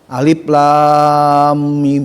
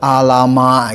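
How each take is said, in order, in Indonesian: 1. Setiap nama huruf dibaca penuh dan dipanjangkan. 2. Huruf-huruf disambung menjadi suku kata pendek. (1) "harus bisa bacanya seperti tadi ya" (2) "jangan sampai dibaca alama"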